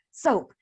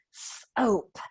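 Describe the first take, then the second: First: Said in the usual way. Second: SOAP split into a separate s and oap; segmented sounds. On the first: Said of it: "what sound can we hear". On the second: Shown as a demonstration. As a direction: pull SOAP apart, hissed s, pause, then oap. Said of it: "Watch me".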